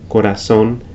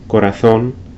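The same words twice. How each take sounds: First: The z is said like English s. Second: The z is said like English th. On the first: This is how it is said in Latin America. "in Latin America, these same words would be pronounced" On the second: This is how it is said in Spain. "the Spanish pronunciation of the Z is similar to the T H in English"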